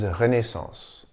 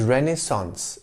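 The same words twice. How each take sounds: First: The word is said with French pronunciation. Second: The word is said with English pronunciation. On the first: "The original French pronunciation is Renaissance" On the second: "The right pronunciation is Renaissance in English"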